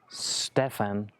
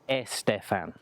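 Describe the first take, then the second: First: The name starts directly with the s sound. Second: The name starts with an added e vowel. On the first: The speaker calls it right. "my name is Stefan" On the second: The speaker calls it wrong. "It's not Estefan"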